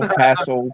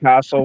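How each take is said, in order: First: It is said in an American accent. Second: It is said in an Australian accent. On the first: "castle is more you guys" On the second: "It would be my Australian, Australia, my Australia accent"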